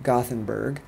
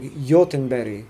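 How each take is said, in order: First: The word begins with a hard G sound. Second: The word begins with a Y sound. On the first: This is the English name for the city. "I grew up calling it Gothenburg" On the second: This is how local people say the city's name. "the G is a Y, and the G at the end is another Y, so it's like Jotunberi"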